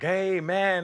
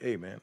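First: It is said loudly, making a big deal. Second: It is said quietly and low-key.

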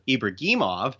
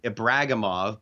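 First: The name is said with Russian pronunciation. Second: The name is said in an anglicized way.

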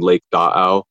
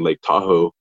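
First: The name is said with its original Washoe sounds. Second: The name is said with anglicized English sounds. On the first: The speaker calls it right. "to call something Lake Da'au" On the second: The speaker calls it wrong. "in the anglicized version"

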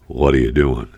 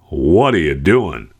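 First: It sounds mildly puzzled. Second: It sounds intensely exasperated.

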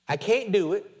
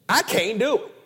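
First: It is said plainly, without extra force. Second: It is said with forceful, emphatic energy.

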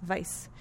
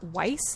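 First: The name begins with a V sound. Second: The name begins with a W sound. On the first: The speaker calls it right. "It's Weiss. ... yes, it's Vice" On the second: The speaker calls it wrong. "is not Weiss, like I said"

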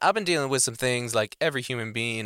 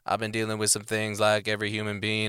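First: The pitch moves up and down conversationally. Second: The pitch stays flat in a monotone. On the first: It shows how the speaker is really feeling. "And then he's up and down" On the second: It does not show how the speaker is feeling. "that straight monotone kind of feel"

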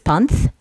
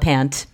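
First: The name ends with a Nepali-style final t sound. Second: The name ends with a plain English t sound. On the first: This is the original name given at birth. "when you pronounce it in Nepalese, it's Panth" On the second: This is the name adopted to fit in. "I assimilated as Paula Pant"

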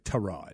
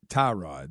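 First: It does not sound like 'tie rod'. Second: It sounds like the car part 'tie rod'. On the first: This is how the name is actually said. The speaker calls it right. "They say it's actually Tyrod" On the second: This is the common way people say it. The speaker calls it wrong. "I've always heard it Tyrod"

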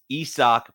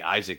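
First: The name is said as Isak, not English Isaac. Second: The name is said like the English name Isaac. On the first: The speaker calls it right. "it's Isak is how the pronunciation is on Baseball Reference" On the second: The speaker calls it wrong. "I want to say Isaac Paredes"

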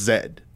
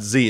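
First: The letter is pronounced 'zed'. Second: The letter is pronounced 'zee'. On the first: "It's Zed" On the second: "It's not Z"

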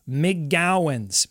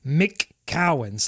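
First: The second syllable begins with a g sound. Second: The second syllable begins with a k sound. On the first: The speaker calls it right. "Your job is to get to that G" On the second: The speaker calls it wrong. "it's easy to go McCowan's. Like, you're bouncing off of the little C into a big C"

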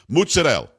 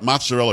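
First: It is said with an Italian accent. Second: It is said with a plain American accent.

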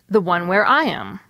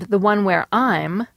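First: 'Am' is a weak syllable with its own short vowel. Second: 'Am' shrinks to a bare m sound joined to 'I'. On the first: "I didn't use the strong forms are and am, but I did still pronounce a vowel" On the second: "in your and I'm, there's no vowel at all"

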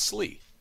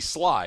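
First: The vowel sounds like 'ee'. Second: The vowel sounds like 'eye'. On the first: The speaker calls it right. "and it's Slee" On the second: The speaker calls it wrong. "S-L-I could be Sly"

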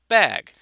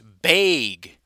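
First: The vowel is said like in bat. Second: The vowel is said the Wisconsin way.

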